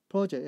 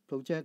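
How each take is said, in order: First: The stress falls on the first syllable. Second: The stress falls on the second syllable. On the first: It is a noun: a planned piece of work. "as a noun" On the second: It is a verb: to throw forward or show on a screen. "as a verb"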